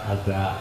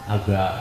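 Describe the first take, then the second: No difference in how they are said.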